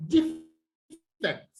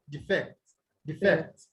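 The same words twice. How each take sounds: First: DE in "defect" drawn out and stressed; stress on first syllable. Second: "defect" with de short and FECT stressed; stress on second syllable. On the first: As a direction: say "defect" as a noun, leaning on DE. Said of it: "you stress them on the first syllable". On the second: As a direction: say "defect" as a verb, landing on FECT. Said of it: "you stress them on the what?". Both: Shown as a demonstration.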